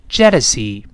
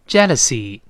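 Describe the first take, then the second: The two takes are said the same way.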